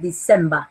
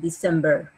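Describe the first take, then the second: First: The final -er sound is clipped short. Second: The final -er sound is drawn out. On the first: "la pronunciación que yo les hago es la británica, donde el sonido ER final lo acortan" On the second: "Pero los americanos lo exageran"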